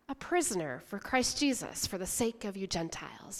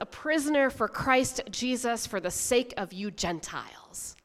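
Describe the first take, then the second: First: It is read in a calmer, quieter way. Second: It is read in an intense, emphatic way. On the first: "maybe calmer" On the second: "I did this for you kind of verse"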